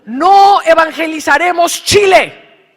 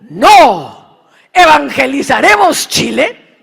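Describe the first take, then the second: First: It runs on with no pause after no. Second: There is a clear pause after no. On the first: We will not evangelize Chile. "Que no vamos a evangelizar Chile" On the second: We will evangelize Chile. "Que evangelizaremos Chile"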